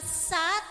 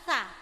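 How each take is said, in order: First: A plain, sharp s sound. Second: A soft, airy th-like s sound. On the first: The speaker calls it wrong. "bukan sa" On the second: The speaker calls it right. "cuman sa dia ngawang"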